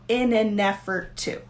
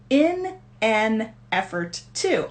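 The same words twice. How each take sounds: First: The words run together like one word. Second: Each word is said separately, not linked. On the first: "normally when I'm speaking um, at native speed" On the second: "so it's not in an effort to, although I can say it that way"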